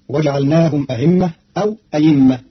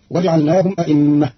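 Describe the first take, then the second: First: أئمة eased or with ya, ayimmah; ayimmah, hamza softened to a glide; Qalun reading. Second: أئمة with two hamzas, a'immah; a'immah, clear stops; standard reading. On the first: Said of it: "فتصير". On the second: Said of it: "بتسهيل الهمزة الثانية". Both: Shown as a demonstration.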